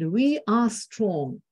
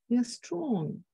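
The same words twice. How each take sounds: First: The voice is loud, firm and forceful. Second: The voice is soft, quiet and weak. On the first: The speaker sounds confident. The speaker calls it right. "Instead of saying like" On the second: No one believes the speaker. The speaker calls it wrong. "soft and weak kind of voice"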